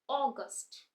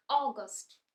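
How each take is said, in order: Both takes have the same delivery.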